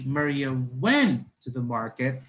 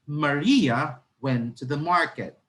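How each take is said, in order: First: The stress is on went. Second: The stress is on Maria.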